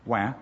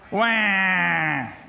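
First: It is said in a calm, cool way. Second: It is said as a loud wailing cry.

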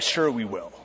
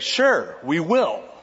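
First: It is said in a doubtful, sarcastic tone. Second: It is said in a sincere, eager tone. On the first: The speaker doubts it will happen. The speaker calls it wrong. "And don't say, oh, yeah" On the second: The speaker truly agrees to do it. The speaker calls it right.

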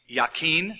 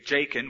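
First: The name is said in a Hebrew-like way. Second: The name is said in an English way. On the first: The speaker calls it right. "called its name Yakin" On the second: The speaker calls it wrong. "or we would say Jakin, we'd mispronounce it"

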